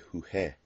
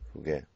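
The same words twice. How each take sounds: First: The g is a soft, throaty h-like sound. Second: The g is a hard g sound. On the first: The speaker calls it wrong. "We can't write just G E because that would be jugué" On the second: The speaker calls it right. "So we put the U"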